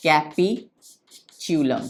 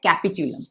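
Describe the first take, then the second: First: Capitulum very slow, split in two parts; syllable-by-syllable dictation. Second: Said in the usual way. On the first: Shown as a demonstration. Teacher dictates capitulum to students, slowly in separate parts. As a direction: stretch capitulum out, lower, pausing midway.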